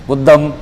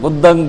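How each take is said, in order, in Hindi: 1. शब्द का अंत बंद m ध्वनि से होता है। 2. शब्द का अंत नासिक्य ng ध्वनि से होता है। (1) "मैं भी शुरू शुरू में जब था तो मैं भी माँ बोलता था" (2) "धीरे धीरे मैंने अपना अभ्यास किया"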